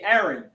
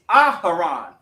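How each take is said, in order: First: The name is said the English way. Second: The name is said the ancient Hebrew way. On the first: "because of the English language, we say Aaron" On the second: "in the actual ancient, it's Aharon"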